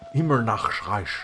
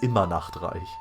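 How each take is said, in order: First: It is said in an imitated character voice. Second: It is said in the speaker's normal voice. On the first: "that's how she says it" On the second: "Normally it's"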